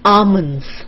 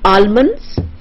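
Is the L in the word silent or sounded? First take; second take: silent; sounded. First: The L sound is left out of the word. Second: The L sound is pronounced in the word. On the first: The speaker calls it right. "L is silent" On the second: The speaker calls it wrong. "this is not almonds"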